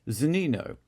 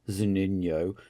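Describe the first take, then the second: First: The second n is said as a plain n. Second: The second n is said as a 'ny' sound. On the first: The speaker calls it right. "he's Zunino" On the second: The speaker calls it wrong. "there is no tilde on the second N... He's not Zunino"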